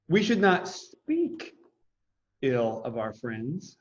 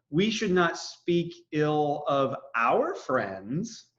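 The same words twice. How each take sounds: First: The word 'speak' is stressed. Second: The word 'our' is stressed.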